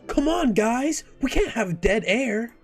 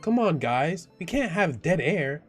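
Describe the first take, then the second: First: It is said in a ditzy airhead voice. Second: It is said in a plain, normal voice.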